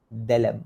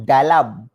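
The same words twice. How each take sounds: First: Touch the d of "Dalam" lightly; correct light d. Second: "Dalam" loud with a heavy d; too-hard d. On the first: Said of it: "Kena sini". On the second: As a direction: punch the d of "Dalam". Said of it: "Salah tu sebenarnya". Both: Shown as a demonstration.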